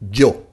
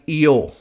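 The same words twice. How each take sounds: First: It begins with a J-like sound, as in Joe. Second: It begins with a soft English Y sound. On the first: The speaker calls it right. "something like when you say Joe ... That's the correct pronunciation" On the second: The speaker calls it wrong. "something like with a Y ... that's not correct pronunciation in Spanish"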